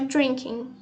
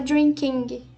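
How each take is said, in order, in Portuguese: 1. Termina no nasal, sem som de G. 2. Ouve-se um som de G forte no final. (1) "é só drinking, como se não tivesse o G" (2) "você não fala drinking"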